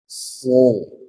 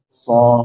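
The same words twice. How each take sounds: First: The sound is thick, with the voice gathered back. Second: The sound is plain and thin. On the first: "Sekarang ditem- di- dikumpulkan suaranya" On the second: "so biasa ya"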